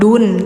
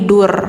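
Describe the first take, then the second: First: The syllable ends in an n sound. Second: The syllable ends in an r sound. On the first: The speaker calls it wrong. "jangan dun" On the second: The speaker calls it right. "tapi dur"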